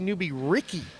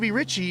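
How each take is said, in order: First: The surname has a 'k' sound in the middle. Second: The surname has a 'ch' sound in the middle. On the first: The speaker calls it wrong. "I always hear people say Newbie Ricky" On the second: The speaker calls it right. "But it's Ritchie"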